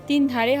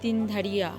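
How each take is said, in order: First: The name ends with the sound 'dhare'. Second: The name ends with the sound 'dharia'. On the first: The speaker calls it wrong. "তিন ধারে হবে না" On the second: The speaker calls it right. "উচ্চারণটা হবে তিন ধারিয়া"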